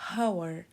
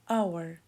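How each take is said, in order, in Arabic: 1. الكلمة تبدأ بصوت h مسموع. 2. الكلمة تبدأ بحرف علة، ولا يوجد صوت h. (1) "ما قلناش our" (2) "قلنا our"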